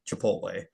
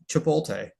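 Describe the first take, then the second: First: The name is pronounced in its standard form. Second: The name is pronounced with altered sounds.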